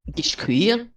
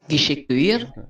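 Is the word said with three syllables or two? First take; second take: two; three. First: The word is said without a middle vowel. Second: The word is said with an added middle vowel. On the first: "if someone wanted to say" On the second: "hiding an E sound"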